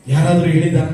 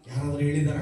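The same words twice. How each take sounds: First: ಯಾರಾದ್ರೂ punched out loud at the start of ಯಾರಾದ್ರೂ ಹೇಳಿದಾರ?. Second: Asked low and hushed, ಯಾರಾದ್ರೂ ಹೇಳಿದಾರ? almost under the breath; quiet. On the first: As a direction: fling ಯಾರಾದ್ರೂ ಹೇಳಿದಾರ? at the crowd, full volume. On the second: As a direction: drop the voice right down on ಯಾರಾದ್ರೂ ಹೇಳಿದಾರ?. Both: Real, not acted. Preacher repeats question, quiet then loud.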